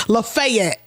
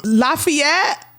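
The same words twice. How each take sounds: First: Lafayette said "luh-FAY-et"; right way. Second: Lafayette said "LA-fee-et"; wrong way. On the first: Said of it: "You can't say Lafayette". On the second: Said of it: "he said that was wrong". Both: Shown as a demonstration.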